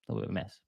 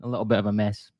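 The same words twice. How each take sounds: First: Much softer, muttered to himself; soft muttered echo of the verdict; quiet under-breath repeat. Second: Said in the usual way. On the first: Shown as a demonstration. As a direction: drop it away as an aside. Repeating his own verdict.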